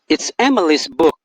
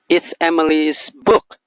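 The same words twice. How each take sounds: First: The word Emily's carries the main stress. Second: The word Emily's does not carry the main stress.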